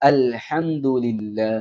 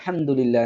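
First: The opening 'al' syllable is clearly said. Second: The opening 'al' syllable is left out. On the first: The speaker calls it right. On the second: The speaker calls it wrong.

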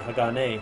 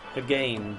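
First: The name is said in Japanese syllables. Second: The name is said in an Anglicized way. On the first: This is the likely correct Japanese pronunciation. The speaker calls it right. "knowing Japanese and its syllables pronunciation, I guess it would actually be Hagane" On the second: This is how the speaker used to say it. The speaker calls it wrong. "I used to call him Hagane"

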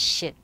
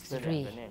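First: The syllable begins with an 'sh' sound. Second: The syllable begins with a 'thr' sound. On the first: This is the Tibetan pronunciation. "in Tibetan, it's also pronounced shit" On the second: This is the Japanese or Sanskrit pronunciation. "in Japanese or Sanskrit is three"

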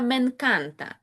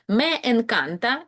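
First: The words merge, one e dropped between them. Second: The two words are said separately, both e's heard.

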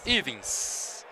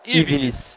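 First: The name ends in a short -ins syllable. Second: The name ends in an extra -nes syllable. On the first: This is the player's actual name. The speaker calls it right. "Então é Ivins" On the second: This is the form written on the official scoresheet. The speaker calls it wrong. "Aqui na súmula tá Ivines"

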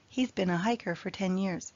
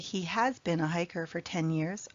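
First: He has is shortened to one syllable. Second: He has is said as two full words. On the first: "I just use the contraction, he's" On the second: "you can also say"

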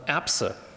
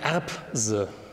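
First: The middle consonants are voiceless. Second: The middle consonants are voiced. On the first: The speaker calls it right. "sondern Erbse" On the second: The speaker calls it wrong. "Sie sagen auch nicht Erbse"

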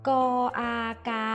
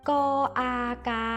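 Both takes have the same delivery.

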